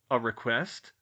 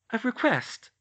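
First: Plain pitch, questioning rise on request; puzzled echo. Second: Put-on high, loud girl voice, statement falling; teasing reveal. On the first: Acted. George echoes in disbelief. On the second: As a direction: lay it out plainly as a surprise. Hermione answers, George echoes.

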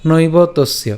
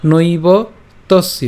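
First: "নৈব তস্য" joined in one phrase; said together. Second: "নৈব" and "তস্য" split by a pause; broken apart. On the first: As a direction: run "নৈব তস্য" together without a pause. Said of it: "একসাথে উচ্চারণ করছি". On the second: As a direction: stop after "নৈব", then say "তস্য". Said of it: "এই যে ভেঙে দিয়েছি". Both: Shown as a demonstration.

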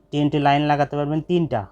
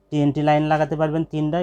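The two takes are said the same way.

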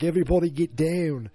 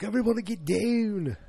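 First: Raised, louder Australian mock shout; Australian accent. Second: High-pitched, slipping Australian yell; botched Australian accent. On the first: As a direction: imitate an Australian calling out a warning. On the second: Retold or imitated. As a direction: overdo an Australian accent and lose it. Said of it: "Then I, I lost it again".

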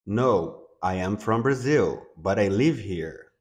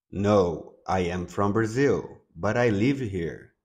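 The two takes are said the same way.

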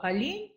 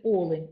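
First: «олень» said the Russian way, stressing -лень; олЕнь with the wrong stress. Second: «олень» stressed on the first syllable, Олень; «олень» with the stress on the opening О; correct stress. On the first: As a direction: stress on the second syllable of «олень», олЕнь. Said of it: "з наголосом на другий склад". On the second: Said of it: "а тут треба говорити". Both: Shown as a demonstration.

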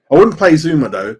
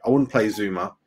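First: Loud, firm call on not playing Zouma. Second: Said in the usual way. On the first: Real, not acted. Streamer to chat, firmly ruling out Zouma, loud stress on "wouldn't".

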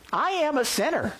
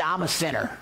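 First: "am" lifted high in "I am a sinner"; uncontracted "I am", with AM punched higher; stress on AM. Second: Said in the usual way. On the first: Real, not acted. Preacher owning up to his congregation, emphatic on "am". Restates admission in full, emphatically.

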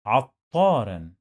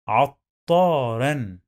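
First: Said in the usual way. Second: عطارا very slowly as "at... taa-ran"; teacher's slow model of عطارا; slow syllable demo. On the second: Shown as a demonstration. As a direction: break عطارا after the first t, stretch "taa". Teacher breaks the word up slowly.

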